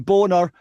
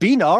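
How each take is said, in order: First: The name is said like 'Boner'. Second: The name is said like 'Beaner'. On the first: The speaker calls it wrong. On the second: The speaker calls it right.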